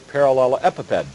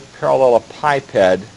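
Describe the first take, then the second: First: The word ends with a short 'epi-ped' sound. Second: The word ends with a sound like 'piped'. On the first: "instead of piped" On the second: "I've pronounced that way throughout my background"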